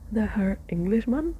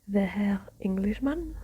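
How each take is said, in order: First: It is spoken in the reader's ordinary accent. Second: It is spoken with a put-on German accent. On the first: The speaker calls it right. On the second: The speaker calls it wrong.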